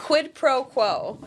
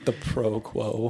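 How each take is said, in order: First: Slow clear "Quid pro quo" with a hard k; correct pronunciation. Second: Slow careful "The pro quo"; wrong pronunciation. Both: Shown as a demonstration. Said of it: "is what I was trying to say".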